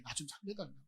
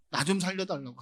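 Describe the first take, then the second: First: A soft, pleading murmur, much quieter; hushed plea. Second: Pleading out loud, louder; louder plea. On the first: Preacher voicing Jesus begging the Father, hushed and pleading. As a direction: plead softly, almost to yourself. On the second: Preacher voicing Jesus begging to be saved, loud pleading. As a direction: raise the plea into a loud cry. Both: Acted.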